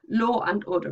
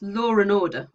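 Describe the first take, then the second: First: There is no r sound after law. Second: It is run together fast, adding an r. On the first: "there's no r" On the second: "if we run it together fast"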